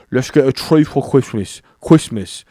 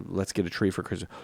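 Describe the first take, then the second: First: R turned to W in "Christmas", said "Kwistmas"; regional British accent. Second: Said in the usual way. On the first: Shown as a demonstration. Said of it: "they put the W instead of R". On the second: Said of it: "if I said".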